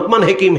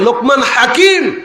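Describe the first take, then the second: First: The second word begins with an 'he' sound. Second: The second word begins with a 'ha' sound. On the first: This is the regional way of saying the name. The speaker calls it wrong. "এটা আমাদের আঞ্চলিক ভাষা বলে Lokman হেকিম" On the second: This is the proper form of the title. The speaker calls it right. "আরে হেকিম নয়, লোকমান হাকিম"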